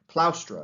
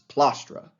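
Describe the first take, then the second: First: The first vowel is an 'ow' diphthong. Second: The first vowel is a plain 'a'. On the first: It marks upper class speech. "is how you pronounce it in, in proper uh, upper class Latin" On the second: It marks working class speech. "more working class Latin"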